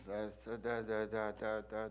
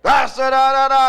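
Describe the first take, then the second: First: Low, hushed mock-German speech; soft, low nonsense syllables in an even run; start slow and low. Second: Loud, high mock-German rant; mock oration at full blast; rise high, catch fire. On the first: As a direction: open a mock oration very quietly. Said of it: "He would start off slow. Talking low". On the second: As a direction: shout nonsense syllables like a rally orator. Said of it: "rise high, catch on fire".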